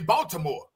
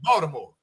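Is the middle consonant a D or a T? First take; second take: T; D. First: The middle consonant is a clear T. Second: The middle consonant sounds like D. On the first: The speaker is not from the city. The speaker calls it wrong. "I just always say Baltimore" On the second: The speaker is from the city. The speaker calls it right. "The T becomes a D"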